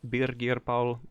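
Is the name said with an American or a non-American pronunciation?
non-American. The name is said without an American pronunciation.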